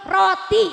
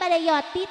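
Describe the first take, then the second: First: The word begins with an r sound. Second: The word begins with a y sound. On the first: It is the clear adult pronunciation. The speaker calls it right. "roti cek urang mah" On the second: It imitates a small child's baby talk. The speaker calls it wrong. "tah ulah di kitu-kitu budak teh"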